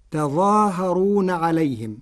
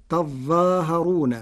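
First: تظاهرون with a single light z; plain ẓ in تظاهرون; Hafs reading. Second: تظاهرون with a doubled ẓ, slow; تظاهرون with stressed doubled ẓ; Warsh reading. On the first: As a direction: recite تظاهرون without doubling. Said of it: "قرأ ورش كلمة "تظاهرون" بتشديد الظاء". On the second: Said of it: "بتشديد الظاء". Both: Shown as a demonstration.

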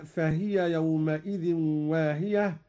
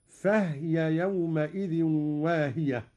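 First: Said in the usual way. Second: "فهي" as fahya, not fahiya; vowelless ha. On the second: Shown as a demonstration. ("فهي" بإسكان الهاء) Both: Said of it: "بإسكان الهاء أيضًا".

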